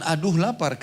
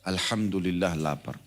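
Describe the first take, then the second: First: High, whiny "Aduh lapar" with a groan on aduh; mock complaint. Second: Slow, soft and thankful, "Alhamdulillah lapar" said calmly; grateful alhamdulillah. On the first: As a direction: complain about the hunger, a bit hammed-up. (keluhan manja yang dibuat-buat) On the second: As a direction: accept the hunger gratefully, unhurried. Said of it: "mulai sekarang ubah ya". (ucapan syukur yang pelan dan lembut) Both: Shown as a demonstration.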